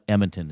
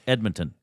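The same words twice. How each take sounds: First: The d sound in the middle is dropped. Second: The d sound in the middle is clearly kept. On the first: The speaker calls it wrong. "they leave the D out" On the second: The speaker calls it right. "it's got to be there"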